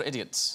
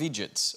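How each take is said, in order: First: Said in the usual way. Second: "idiots" said Scottish-style as EE-jits; Scottish "eejits". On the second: Shown as a demonstration. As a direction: say "idiots" as two syllables, "eejits". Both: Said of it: "or idiots".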